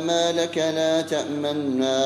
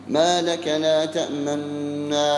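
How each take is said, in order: The two takes are said the same way.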